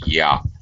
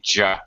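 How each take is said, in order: First: The first sound is a soft gliding Y. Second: The first sound is a hard J-like consonant. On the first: "your tongue barely touches in the very back of your mouth" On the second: "your tongue touches the top of your mouth"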